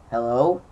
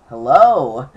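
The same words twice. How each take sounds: First: Said in the usual way. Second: A second hello, pushed louder; calling again into a silent phone line; louder repeat. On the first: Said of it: "I was like". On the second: Retold or imitated. To a caller who isn't answering, a louder hello. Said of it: "And I said it again".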